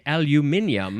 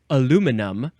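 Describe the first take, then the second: First: It is said with five syllables. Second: It is said with four syllables. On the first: This is how people elsewhere say it. "other people in the world like to say aluminium" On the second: This is the American way of saying it. "we Americans like to say aluminum"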